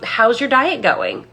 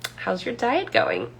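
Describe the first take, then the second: First: The question is asked in a plain, sincere tone. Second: The question is asked in a snarky, judging tone. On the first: It is a simple, genuine question. "as simple as" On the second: It mocks the diet passive-aggressively. "depending on the tone"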